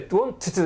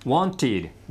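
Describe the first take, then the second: First: The word ends with a t sound. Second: The word ends with an id sound. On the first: The speaker calls it wrong. "ここまたトゥにトゥで、ウォンティトゥっておかしいでしょ" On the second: The speaker calls it right. "ワンティド、ワンティドってなるわけですね。"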